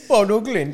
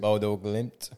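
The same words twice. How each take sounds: First: The name is said in a put-on accent. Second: The name is said in a plain accent. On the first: "I try to say it with an accent"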